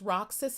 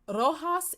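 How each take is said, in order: First: The name is said the American way. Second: The name is said the Philippine way. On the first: This is how the name is said in the United States. "is pronounced Roxas in the United States" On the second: This is how the province is named locally. "in the Philippines"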